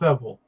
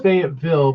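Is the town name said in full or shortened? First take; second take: shortened; full. First: The name is squeezed into two short syllables. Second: The name is said with all its syllables. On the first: This is how locals say it. "the locals pronounce it Feville, like Wavel" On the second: This is the standard outside pronunciation. "No, it's Fayetteville"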